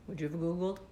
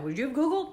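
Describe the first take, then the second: First: Googled asked softer and lower, rising; quiet, worn-out asking; soft, defeated question. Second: Said in the usual way. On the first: Real, not acted. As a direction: ask Googled quietly, drained. Asking viewers.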